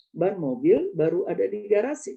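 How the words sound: The break comes after mobil, before baru.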